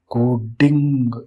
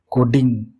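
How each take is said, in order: First: coding stretched slowly, syllable by syllable; teacher drawing out coding slowly; slow, drawn out. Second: Said in the usual way. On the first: Shown as a demonstration. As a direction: let coding linger, slow and deliberate.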